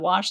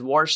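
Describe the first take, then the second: First: The word is said without an R sound. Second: The word is said with an R sound. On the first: "there's no R in wash" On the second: "she does say wash, and there's no R in wash"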